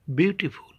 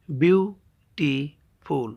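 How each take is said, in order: First: Said in the usual way. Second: "বিউটিফুল" slowly split as বিউ, টি, ফুল; three separate beats in "বিউটিফুল", pauses between; syllable by syllable. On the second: Shown as a demonstration. Teacher showing a trisyllable, saying "বিউটিফুল" in three slow parts. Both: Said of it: "তিনবারে উচ্চারণ করতে হয়".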